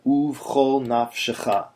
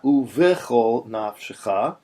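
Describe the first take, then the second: First: "uvchol" in two syllables, oov-khol; correct pronunciation. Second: "uvechol" with an extra "ve" syllable, oo-ve-khol; wrong pronunciation. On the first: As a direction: run v straight into ch in "uvchol", no vowel between. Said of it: "but uvchol nafshecha". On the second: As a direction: say "uvechol" in three syllables, sounding the e after v. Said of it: "Not uvechol nafshecha". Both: Shown as a demonstration.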